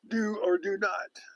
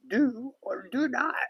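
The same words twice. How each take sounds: First: It is said in a normal voice. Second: It is said in a Yoda voice.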